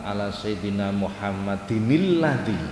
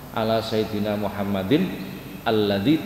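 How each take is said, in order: First: The words run on without a pause. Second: There is a stop before the last word. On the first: The speaker calls it right. "ini harus diwasolkan, jangan diputus" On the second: The speaker calls it wrong. "kan boleh begitu cara baca. Tapi menurut beliau jangan"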